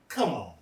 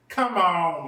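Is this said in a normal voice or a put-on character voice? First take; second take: normal; put-on. First: It is said in an ordinary speaking voice. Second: It is said in a put-on character voice.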